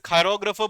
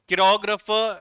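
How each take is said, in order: First: The first syllable sounds like 'kai'. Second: The first syllable sounds like 'kee'. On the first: The speaker calls it right. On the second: The speaker calls it wrong.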